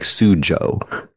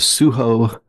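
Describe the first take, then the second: First: The middle consonant is an English J sound. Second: The middle consonant is an H sound. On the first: This is how the spelling looks. The speaker calls it wrong. "It looks like Sujo" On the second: This is how the Spanish title is properly said. The speaker calls it right. "closer to the proper pronunciation"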